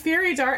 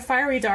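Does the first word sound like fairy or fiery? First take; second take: fairy; fiery. First: The first word sounds like the word fairy. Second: The first word is said the speaker's usual way. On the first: "you're saying fairy dart" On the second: "I say fiery"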